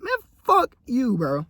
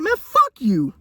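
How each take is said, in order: First: Very high, slow, drawn out; repeating the clapback slowly; defiant retort, restated. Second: Mock defiant clapback; defiant retort. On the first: Shown as a demonstration. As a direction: savor the comeback. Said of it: "that's the best I could put it". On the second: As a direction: snap back at them. Retorting to the money critics.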